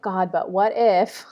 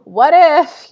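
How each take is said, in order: First: Slow, anxious muttered what-if; a slow, uneasy "God, but what if?"; worried inner voice. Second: "What if" jumped high and loud with a laugh; bright, amused "What if" after a laugh; laughing echo. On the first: Retold or imitated. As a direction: voice the nagging fear, drawn out. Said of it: "in my head, I'm like". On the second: Shown as a demonstration. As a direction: throw the fear back as a laughing joke.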